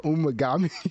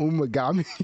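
First: The name is said as Umagami. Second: The same.

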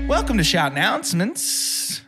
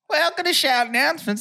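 First: It is said in an odd, strange way. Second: It is said in a natural, normal way.

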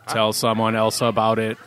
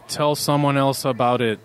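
First: It is said in a mechanical robot-like voice. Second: It is said in a natural speaking voice.

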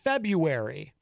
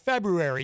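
First: The first R is left silent. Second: The first R is subtly pronounced. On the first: The speaker calls it wrong. "everyone thinks the R is supposed to be silent" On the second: The speaker calls it right. "You are supposed to include the R, it's just subtle"

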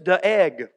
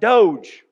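First: The name is said as two syllables. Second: The name is said as one syllable. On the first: The speaker calls it right. "really the pronunciation is de-egg" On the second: The speaker calls it wrong. "Last week I pronounced it Doge"

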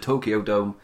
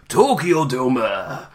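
First: It is said plainly in ordinary conversational speech. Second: It is said as a dramatic, energetic announcer call. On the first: "It feels weird to say the word normally" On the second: "you hear it said one way every time, like"

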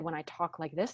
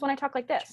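First: The voice is deep and resonant from the chest. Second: The voice is high and thin, not from the chest.

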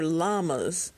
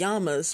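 First: The word begins with an L sound. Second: The word begins with a Y sound. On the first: The speaker calls it right. "but they're llamas" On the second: The speaker calls it wrong. "they pronounce it like a Y. So whenever I see that, that just comes to my mind. So I call it llamas"

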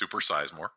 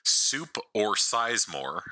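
First: The phrase is said fast with words run together. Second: The phrase is said slowly with separated words.

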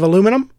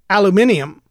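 First: It is said the American way, with four syllables. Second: It is said the British way, with five syllables. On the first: "instead of aluminum" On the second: "the way the British say aluminium"

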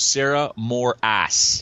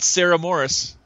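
First: The surname sounds like Morass. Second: The surname sounds like Morris. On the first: The speaker calls it right. "what is the proper pronunciation of your last name? ... She goes" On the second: The speaker calls it wrong. "It's not Sarah Morris"

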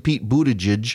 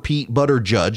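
First: The surname sounds roughly like 'boota-judge'. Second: The surname sounds like 'butter judge'. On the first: The speaker calls it right. "it's actually Pete Buttigieg" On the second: The speaker calls it wrong. "or Pete Butter Judge"

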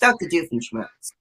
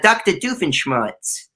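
First: The name is said in a plain accent. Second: The name is said in a Dracula-like accent. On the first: "but it's Dr. Doofenshmirtz" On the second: "I made it more of a Hotel Transylvania vibe for that"

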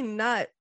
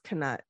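First: The word starts with a plain n sound. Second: The word starts with a separate k sound. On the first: "I say nut" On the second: "Jim Dale says knut ... it's not spelled with like an apostrophe"

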